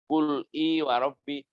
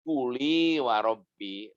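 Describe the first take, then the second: First: A glottal stop separates qul from the next vowel. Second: The l runs straight into the next vowel.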